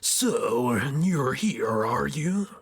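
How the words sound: It is said in a put-on evil voice.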